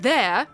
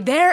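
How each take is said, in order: First: The word ends without an R sound. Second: The word ends with a linking R sound. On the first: "you would normally not say the R, you would go like there" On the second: "because a vowel comes right after that, they add a hard R"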